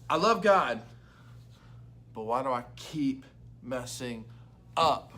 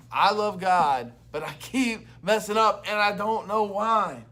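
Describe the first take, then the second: First: Said in the usual way. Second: Louder, slower, pressing each word; emphatic loud restatement. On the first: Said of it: "states the week's question". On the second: Shown as a demonstration. Pastor repeating the week's question, louder and slower. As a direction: say it like a real confession you mean. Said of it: "repeats question with more force".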